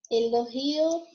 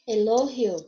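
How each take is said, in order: First: Elogio with the stress on GI. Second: Elogio with the stress on LO. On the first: Teacher gives the Portuguese take, stress on GI in Elogio. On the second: Teacher gives the Spanish take, stress on LO in elogio. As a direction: say elogio as eLOgio, falling. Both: Shown as a demonstration. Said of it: "porque vai mudar a sílaba tônica".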